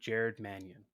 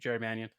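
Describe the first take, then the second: First: The name is said slowly and clearly. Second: The name is said quickly and rushed. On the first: The speaker calls it right. "say your name enunciated" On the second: The speaker calls it wrong. "Don't fly through it. No, slow down"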